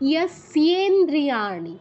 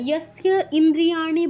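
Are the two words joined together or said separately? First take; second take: joined; separately. First: The two words are fused into one word. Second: The two words are said separately, unjoined. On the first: The speaker calls it right. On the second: The speaker calls it wrong.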